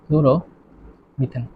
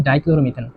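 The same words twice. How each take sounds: First: dichloromethane broken into slow, separate parts; slow dictation. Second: Said in the usual way. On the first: Shown as a demonstration. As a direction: say dichloromethane very slowly with long gaps, softly. Teacher repeats name slowly while writing. (লেখার তালে ভেঙে ভেঙে খুব ধীরে)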